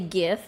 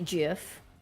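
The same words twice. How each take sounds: First: The word starts with a hard G sound. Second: The word starts with a J sound. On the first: The speaker calls it right. "it does make more sense to say GIF because it's G I F" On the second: The speaker calls it wrong. "pronounce the G as a J"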